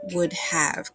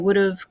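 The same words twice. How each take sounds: First: It is said carefully, with have said in full. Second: It is said quickly, with have sounding like of. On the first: "but it's really not. It's should have, would have" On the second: "when we say it quickly, we say would have ... and it sounds like of"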